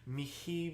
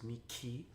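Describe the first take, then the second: First: The middle consonant is a soft H sound. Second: The middle consonant is a hard CH sound. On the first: The speaker calls it right. "It's a, a soft H" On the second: The speaker calls it wrong. "no C H sound"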